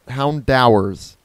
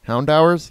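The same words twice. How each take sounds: First: "Houndowers" said slowly, falling, as a tentative first try; tentative name guess. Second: "Houndowers?" with a doubtful rising tune; questioning name. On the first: Gamer trying out a Pokemon name, "Houndowers" slow and falling. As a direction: sound out "Houndowers" slowly and let it drop. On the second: Gamer doubting a Pokemon name, "Houndowers?" rising in question. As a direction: ask "Houndowers?" as if unsure it's right. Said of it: "Yes, Houndour". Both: Shown as a demonstration.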